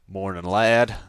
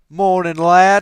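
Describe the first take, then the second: First: It is said in a put-on character voice. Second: It is said in his natural voice.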